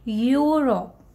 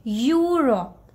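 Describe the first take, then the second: Both takes have the same delivery.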